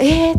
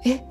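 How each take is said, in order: First: It is exclaimed in a loud voice. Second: It is said in a quiet, subdued voice.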